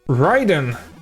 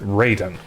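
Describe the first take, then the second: First: The name is said with Japanese pronunciation. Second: The name is said with anglicized pronunciation. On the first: It refers to the Japanese thunder god. "how you would pronounce his name if you're referring to the actual Japanese Thunder God" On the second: It is the name as the game uses it. "for some reason they pronounce it"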